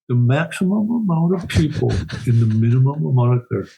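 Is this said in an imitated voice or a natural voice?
imitated. It is said in an imitated, put-on voice.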